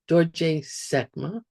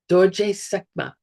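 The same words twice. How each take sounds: First: It is said with a low tone. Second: It is said with a high tone. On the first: The speaker calls it right. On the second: The speaker calls it wrong.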